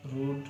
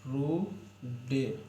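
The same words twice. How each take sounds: First: Said in the usual way. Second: रू- and डे- said as separate, very slow broken syllables; sounding out. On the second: Shown as a demonstration. Teacher sounds out रूड for pupils, syllable by syllable, very slowly. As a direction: break रू- डे- apart slowly. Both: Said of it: "यहाँ पर रूड हो जाएगा".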